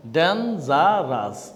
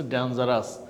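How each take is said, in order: First: Slow syllable demo. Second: Said in the usual way. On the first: Shown as a demonstration. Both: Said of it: "এটাও tree syllable".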